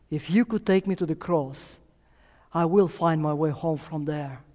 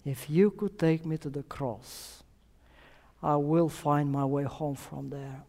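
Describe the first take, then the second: First: Said in the usual way. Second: Softer repeat, letting the words sink in; soft echo. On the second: Real, not acted. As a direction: say it again quietly for the congregation to reflect on. Preacher repeats girl's words softly.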